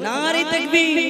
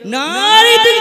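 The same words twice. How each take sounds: First: It is said softly. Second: It is said loudly.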